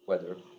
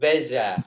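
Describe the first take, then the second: First: The word starts with a w sound. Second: The word starts with a v sound.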